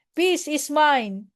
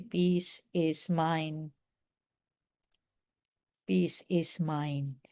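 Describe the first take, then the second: First: Slow "Peace is mine", level voice; calm mantra. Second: Much softer, very slow "Peace is mine"; soft slow mantra. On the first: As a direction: say "Peace is mine" slowly, unhurried. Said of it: "just say". (mabagal na "Peace is mine") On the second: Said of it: "You need to say". (mahina at mabagal na "Peace is mine") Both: Shown as a demonstration.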